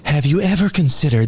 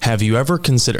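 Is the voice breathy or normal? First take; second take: breathy; normal. First: It is said in a feminine, very breathy voice. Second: It is said in the speaker's normal voice. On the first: The speaker calls it right. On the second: The speaker calls it wrong.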